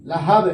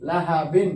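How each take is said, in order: First: লাহাব ending in a loud, bounced sakin ব; qalqala stop. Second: লাহা বিন read with the বিন ending sounded; reading with nunation. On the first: Teacher shows how লাহাব ends when stopping. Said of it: "কলকলা হয়ে যাবে সাকিন". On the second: Teacher spells লাহা বিন with nunation before stopping on it. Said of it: "এখানে বিন হবে না". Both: Shown as a demonstration.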